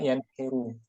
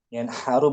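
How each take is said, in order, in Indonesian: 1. Vokal tengah setelah n adalah i. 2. Vokal tengah setelah n adalah a. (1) "bukan juga yanhiru" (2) "yanharu bukan yanhuru"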